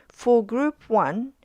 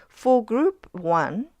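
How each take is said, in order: The two takes are said the same way.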